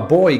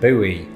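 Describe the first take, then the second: First: It is said the British way. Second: It is said the American way.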